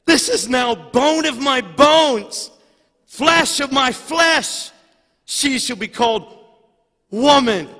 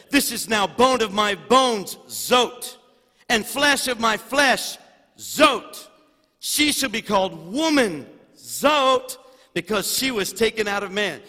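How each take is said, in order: First: Adam's first words proclaimed to the congregation, booming; booming proclamation. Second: Verse read with zot after each phrase; with zot inserted. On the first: Acted. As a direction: proclaim it like scripture thundering from the pulpit. Preacher proclaims Adam's words aloud. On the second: Shown as a demonstration. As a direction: punctuate every phrase with a pumped zot. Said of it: "It says".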